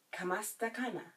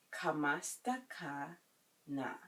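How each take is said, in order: First: Said in the usual way. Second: Slow "Kamusta ka na?" with a pause before the last word; slow teaching repeat. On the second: Shown as a demonstration. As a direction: draw it out for learners. Teacher breaks phrase up for learners.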